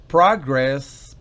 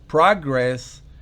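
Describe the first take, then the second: No difference in how they are said.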